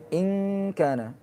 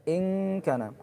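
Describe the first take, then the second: The two takes are said the same way.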